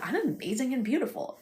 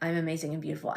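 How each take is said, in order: First: It is said with excited, dawning realization. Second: It is said flatly, like a rote repetition.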